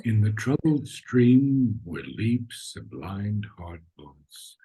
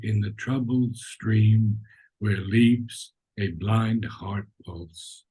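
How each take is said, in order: First: "troubled stream where leaps a blind heart" carried slowly in one unbroken breath; slow, louder, unbroken line to "pulse"; one long breath. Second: "blind heart pulse" broken up, slow and halting; mock choppy reading with many breaths. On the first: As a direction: carry the whole line through without a break. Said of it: "You see how you get the feeling?". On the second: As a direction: chop the line into gasped pieces. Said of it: "Instead of". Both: Shown as a demonstration.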